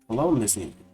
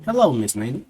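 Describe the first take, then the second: First: It is said in a Southern country accent. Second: It is said in a Spanish accent. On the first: The speaker calls it wrong. "I was giving him the country one" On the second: The speaker calls it right. "I'm gonna give him a Spanish accent"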